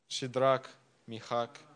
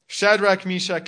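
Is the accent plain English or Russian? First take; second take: Russian; English. First: It is said in a Russian accent. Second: It is said in a plain English accent.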